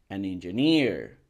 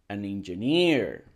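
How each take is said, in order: Both takes have the same delivery.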